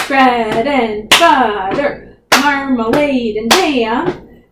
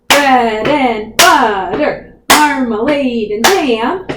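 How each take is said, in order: The two takes are said the same way.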